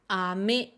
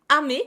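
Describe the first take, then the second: First: The pitch goes from low to high. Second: The pitch stays level across the word. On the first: "Celui qui monte" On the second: "Je fais exprès de garder la même hauteur"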